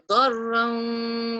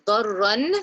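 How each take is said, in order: First: The final n is dropped with nasalization. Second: The final n is pronounced clearly. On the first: The speaker calls it right. "I will drop that noon" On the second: The speaker calls it wrong. "instead of saying darran"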